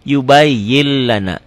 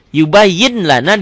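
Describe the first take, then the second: First: "yubayyin lana" said yubayyil-lana; N merged into L. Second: "Yubayyin lana" with a clear N before L; N as written. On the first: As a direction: drop the final N of "yubayyin", double the L of "lana". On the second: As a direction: keep the N closing "Yubayyin". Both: Shown as a demonstration. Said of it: "dibacanya jadi".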